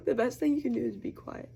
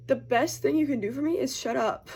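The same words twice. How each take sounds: First: Said in the usual way. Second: Higher and louder, laughing through it; laughing quote. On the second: Retold or imitated. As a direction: laugh as you deliver the punchline. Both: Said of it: "he said".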